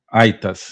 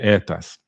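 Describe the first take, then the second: First: It is said in restored classical Latin pronunciation. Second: It is said in ecclesiastical Latin pronunciation. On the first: "eu preferia aqui a, a restaurada" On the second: "em vez de"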